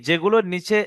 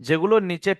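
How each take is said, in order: No difference in how they are said.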